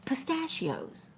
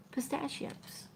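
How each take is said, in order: First: Slow recall. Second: Pistachios whispered without voice, to herself. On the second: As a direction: breathe Pistachios out as a private realization. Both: Real, not acted. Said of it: "trying to think of what kind it was".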